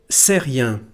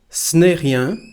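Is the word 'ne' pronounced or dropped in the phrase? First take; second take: dropped; pronounced. First: The little word ne is dropped entirely. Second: The little word ne is clearly pronounced. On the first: "or even just c'est rien" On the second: "we can say ce n'est rien"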